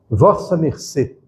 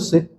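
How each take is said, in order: First: Four full syllables: vos-sa mer-cê. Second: One short syllable: cê. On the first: This is the old full form of address. "nos textos mais antigos está assim" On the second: This is the form now emerging. "Agora está virando se"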